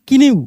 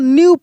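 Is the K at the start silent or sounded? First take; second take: sounded; silent. First: The word starts with a K sound before N. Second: The word starts directly with an N sound. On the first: The speaker calls it wrong. "ना कि किन्यू" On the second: The speaker calls it right. "को हम लोग न्यू पढ़ेंगे"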